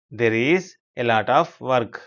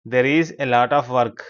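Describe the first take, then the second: First: Very slow, with gaps between word groups; chunked repeat. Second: Slow, connected teacher's reading; model sentence. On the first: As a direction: spell it out phrase by phrase for learners. Teacher repeats it slower, in chunks. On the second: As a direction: read it slowly as one phrase for learners. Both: Shown as a demonstration.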